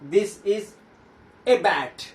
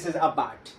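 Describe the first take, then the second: First: The word 'a' is stressed, said 'ay'. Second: The word 'a' is unstressed, said 'uh'.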